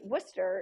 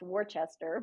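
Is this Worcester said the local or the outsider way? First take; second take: local; outsider. First: It is said in the local Massachusetts way. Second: It is said in the outsider way. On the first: This is how people in the area say it. "we don't do it that way" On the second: This is how some other people say it. "some would say Worcester is pronounced Worcester"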